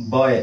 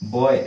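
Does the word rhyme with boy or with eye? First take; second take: boy; boy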